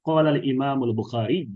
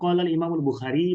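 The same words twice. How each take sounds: First: The name ends with a doubled y and u. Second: The name ends with a plain i sound. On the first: The speaker calls it right. "তাসদিদটা উচ্চারণ করা উচিত এবং হরকতটা পেশ প্রকাশ্য" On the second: The speaker calls it wrong. "ইয়ার তাসদিদ তাসদিদ যে পেশ উচ্চারণ করবেন না, এটা আহ, উচ্চারণগত ভুল"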